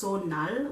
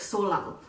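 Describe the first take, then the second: First: The middle consonant is an N sound. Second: The middle consonant is an L sound. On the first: The speaker calls it right. "pronounced Sonal with an N in it" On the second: The speaker calls it wrong. "it looks like Solal"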